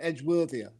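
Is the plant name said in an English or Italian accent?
English. It is said with a British English accent. The speaker calls it wrong. "rather than"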